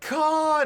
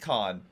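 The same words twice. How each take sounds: First: The word is screamed loudly and dramatically. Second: The word is said at a normal, calm volume.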